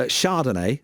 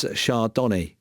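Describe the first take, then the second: First: Chardonnay said as SHAR-don-ay; standard pronunciation. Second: Chardonnay said as shar-DONNY; mispronunciation. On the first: Reading out listener Nick's wine example, SHAR-don-ay for Chardonnay. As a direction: end Chardonnay on "ay". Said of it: "I always say it's". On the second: Quoting the listener's own way, shar-DONNY for Chardonnay. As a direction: end Chardonnay like the name Donny. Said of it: "I always say it's Chardonnay". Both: Retold or imitated.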